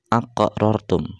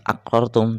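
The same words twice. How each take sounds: First: The q sound has a slight echoing bounce. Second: The q sound is plain, without a bounce. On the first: The speaker calls it right. "tapi dipantulkan sedikit" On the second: The speaker calls it wrong. "bukan aqrartum"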